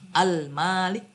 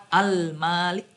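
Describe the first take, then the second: No difference in how they are said.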